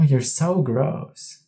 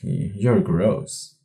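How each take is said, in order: First: It is said in a playful, flirtatious tone. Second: It is said in a cold, disgusted tone. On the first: The gross act is forgiven. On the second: The gross act is condemned.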